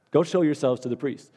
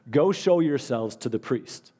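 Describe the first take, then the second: First: Said in the usual way. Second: Slow, weighty words, each one set down; slow emphatic command. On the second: Shown as a demonstration. Pastor quoting Jesus to his church, slow and deliberate. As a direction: lay it out slowly like a command from Jesus. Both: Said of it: "And then he told them".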